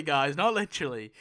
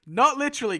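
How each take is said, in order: First: Said in the usual way. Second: Giggling through the words, high and loud; laughing. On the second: Real, not acted. Telling viewers it's not literal, laughing. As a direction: laugh it off mid-correction.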